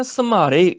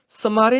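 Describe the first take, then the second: First: ਸਮਾਰੇ with a pressed, doubled m; stress on the m. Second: ਸਮਾਰੇ with a light, single m; wrong pronunciation demo. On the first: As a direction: say ਸਮਾਰੇ as "sam-maare", leaning on the m. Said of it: "ਮਮੇ ਤੇ ਜ਼ੋਰ ਪਾਉਣਾ ਹੈ". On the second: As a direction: say ਸਮਾਰੇ quickly, no weight on the m. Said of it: "ਸਮਾਰੇ ਨਹੀਂ ਕਹਿਣਾ". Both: Shown as a demonstration.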